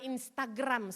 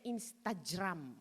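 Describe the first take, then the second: First: The g is said as a hard G. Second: The g is said as a J sound. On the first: The speaker calls it wrong. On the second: The speaker calls it right. "sebetulnya ... Sebetulnya gitu bacanya"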